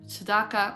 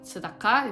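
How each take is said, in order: First: It is said with a non-Israeli pronunciation. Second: It is said with an Israeli pronunciation. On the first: "Let's say tzedakah" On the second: "if you want to use Israeli pronunciation"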